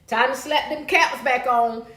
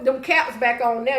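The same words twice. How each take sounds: First: Slow, every word weighted; slow deliberate "slap them caps back on"; slow emphatic repeat. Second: Said in the usual way. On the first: Real, not acted. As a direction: lean on "caps" and draw it out.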